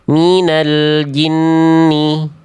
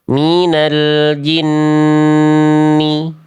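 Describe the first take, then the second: First: The double n is rushed and kept short. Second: The double n is held nasally before the vowel. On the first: The speaker calls it wrong. "Jangan sampai kita hanya baca seperti ini" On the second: The speaker calls it right. "tahan dulu dua harokat. Gunnah"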